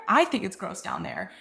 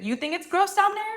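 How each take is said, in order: First: Said in the usual way. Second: "you think it's gross down there" pitched high as a challenge; challenging question. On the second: Acted. Answering a partner who got mad, high challenging question. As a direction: throw "you" back at them, high and questioning.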